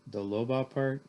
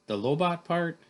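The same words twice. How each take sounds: First: Mildly dejected question at everyday pitch; miserable. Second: High, loud questioning exclamation; incredulous question. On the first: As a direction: ask it with a touch of misery. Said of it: "I said miserably". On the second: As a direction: blurt it back as a startled question. First take, before misery correction. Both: Acted.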